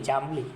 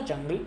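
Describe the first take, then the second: First: જાંબલી with long "aa" and "mb"; corrected word form. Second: જંગલી with "ng" in place of "mb"; wrong word form. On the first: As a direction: say જાંબલી lower, with "mb" replacing "ng". ("જાંબલી", "ાંબ" અવાજ સાથે સુધારેલો ઉચ્ચાર) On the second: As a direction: say જંગલી with a short first vowel and "ng", pitched up. ("જંગલી", "ંગ" અવાજ સાથે ખોટો ઉચ્ચાર) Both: Shown as a demonstration. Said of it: "જંગલી નહીં, જાંબલી".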